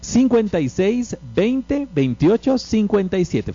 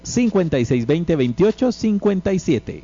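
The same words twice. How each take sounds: First: The number is said slowly. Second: The number is said quickly.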